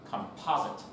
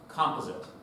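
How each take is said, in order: First: It is said with an American pronunciation. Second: It is said with a Canadian pronunciation. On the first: "Americans pronounce it composite" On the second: "Canadians pronounce that composite"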